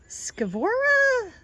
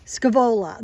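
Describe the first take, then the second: First: "Scavora?" drawn out slowly, high and questioning, with an r in the middle; unsure first try at the name. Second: "Scavola." said firmly and louder with an l, falling at the end; corrected name. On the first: Gardener guessing a plant name for viewers, slow, high and unsure. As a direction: sound out "Scavora?" slowly on a high puzzled rise, trying the r. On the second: Gardener correcting herself on the plant name, louder and sure. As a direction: settle on "Scavola." with a confident fall. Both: Real, not acted. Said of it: "sounds like an Italian name".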